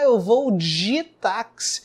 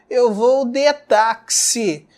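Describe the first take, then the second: First: The word 'de' has a reduced 'i' vowel. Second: The word 'de' has a full 'e' vowel.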